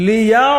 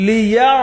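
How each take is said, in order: The two takes are said the same way.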